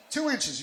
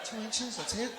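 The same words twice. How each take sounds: First: TWO INCHES pitched high, falling at the end; emphatic amazement. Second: High-pitched imitation of a let-down listener; mock disappointment. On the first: Real, not acted. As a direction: punch "Two inches" high, insisting it is incredible. That's incredible. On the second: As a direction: question it high, as if underwhelmed. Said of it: "You sounded disappointed".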